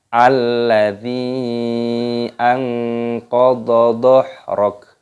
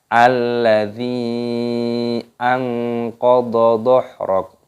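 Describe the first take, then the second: The two takes are said the same way.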